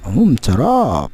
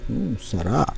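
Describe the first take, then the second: First: Slow, drawn-out mm of delight; slow savouring. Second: Soft murmured mm of pleasure; quiet savouring. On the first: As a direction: linger over the taste. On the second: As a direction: hum it quietly, mouth full. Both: Real, not acted. Savouring balut bite.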